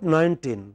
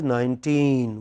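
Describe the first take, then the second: First: The stress is on the first syllable. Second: The stress is on the second syllable. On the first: The speaker calls it wrong. "by mistake we pronounce it as nineteen. It is not nineteen" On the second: The speaker calls it right. "it is nineteen"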